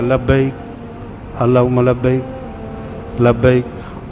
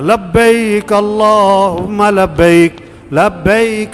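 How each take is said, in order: First: It is recited quietly and weakly. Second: It is recited loudly and forcefully. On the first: The reciter lacks fervor. The speaker calls it wrong. "भाई आवाज निकाल" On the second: The reciter wants everyone else to start reciting. The speaker calls it right. "मैंने जोर से पढ़ा"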